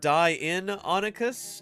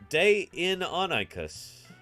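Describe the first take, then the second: First: The first syllable sounds like 'die'. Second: The first syllable sounds like 'day'. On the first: "Isn't it die in Onychus? No, it's not" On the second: "And you say day"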